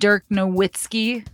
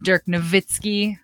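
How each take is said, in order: First: The W is pronounced like an English W. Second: The W is pronounced like an English V. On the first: "who played basketball in the United States" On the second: "his name is actually Dirk Nowitzki in Germany"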